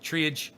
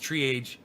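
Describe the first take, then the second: Both takes have the same delivery.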